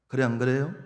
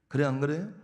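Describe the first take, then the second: Both takes have the same delivery.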